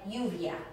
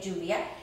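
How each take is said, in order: First: The double L sounds like an English Y. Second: The double L sounds like an English J. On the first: "pronounced like a Y" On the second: "like I say lluvia"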